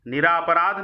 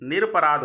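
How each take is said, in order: First: The second syllable has a long 'aa' vowel. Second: The second syllable has a short 'a' vowel. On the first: The speaker calls it wrong. "नहीं" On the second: The speaker calls it right. "होता है"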